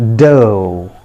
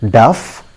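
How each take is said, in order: First: It ends in a long o vowel. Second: It ends with an f sound. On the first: The speaker calls it right. "the correct pronunciation of this word is dough" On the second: The speaker calls it wrong. "Most of us pronounce it as duff"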